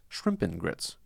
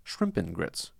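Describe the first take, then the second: First: The word 'and' is reduced to 'n'. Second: The same.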